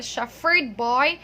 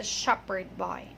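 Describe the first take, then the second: First: Put-on "shepherd" as SHEF-ferd before "boy"; wrong F pronunciation. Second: Put-on "shepherd" as SHEP-perd before "boy"; correct P pronunciation. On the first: Teacher correcting the song line, showing F mispronunciation. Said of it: "it's not a shepherd boy". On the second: Teacher correcting the song line, P pronunciation. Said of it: "it's a shepherd boy". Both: Shown as a demonstration.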